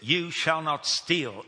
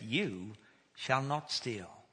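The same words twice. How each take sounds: First: It is said as a stern command. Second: It is said as a reassuring promise.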